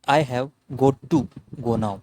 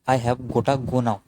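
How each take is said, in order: First: 'Got to' is said as two full words. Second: 'Got to' is reduced to 'gotta'. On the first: "क्या बोल सकते हैं इसको पूरा?" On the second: "short अपन क्या बोला इसको? गोटा।"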